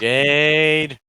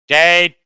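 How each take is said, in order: First: It is said in a normal voice. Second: It is said in a robotic Dalek voice.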